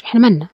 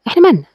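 First: Said in the usual way. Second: مالنا said higher, a pointed question; emphatic repeat. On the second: Shown as a demonstration. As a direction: throw إحنا مالنا back high and dismissive. (بتأكيد ونبرة أعلى على مالنا) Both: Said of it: "repeated with contrast".

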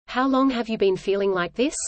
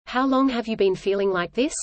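Both takes have the same delivery.

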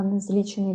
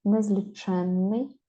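First: Незлічений stressed on "лі", "че" unstressed; stress on the root. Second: Незліченний drawn out, stressed on "чен"; slow незліченний, lean on "чен"; stress on the suffix. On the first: Teacher contrasting the single-н word, stress on "лі" in незлічений. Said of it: "якщо не падає". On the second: Teacher showing the double-н word, stress on "чен" in незліченний. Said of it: "якщо наголос падає на суфікс". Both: Shown as a demonstration.

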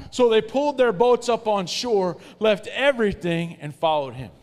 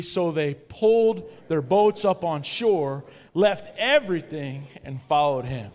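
First: Higher, louder, slow recital of the verse; louder read-aloud. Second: Slow, loud group reading of the verse. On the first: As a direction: push it out stronger for the crowd. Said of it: "One more time". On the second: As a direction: lead the room through it slowly. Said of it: "let's read it out loud together". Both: Shown as a demonstration.

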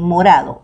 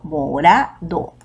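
First: Said in the usual way. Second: Slow "morado" as mo-RA-do, stress on RA; split, stressed RA. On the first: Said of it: "aquí en morado". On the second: Shown as a demonstration. Teacher pointing out the tonic in "morado", stress on RA. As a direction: separate "morado" into beats, leaning on RA. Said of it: "la ra es la tónica".

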